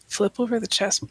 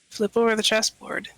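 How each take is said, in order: First: It is said too fast. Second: It is said more slowly.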